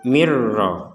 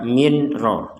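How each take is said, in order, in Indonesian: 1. Bunyi n menyatu menjadi bunyi r yang dobel. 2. Bunyi n diucapkan dengan jelas sebelum r. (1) "kita memasukkan nun sukun ini kepada huruf ro sehingga dibacanya mir rabbik" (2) "Jadi jangan dibaca min ro"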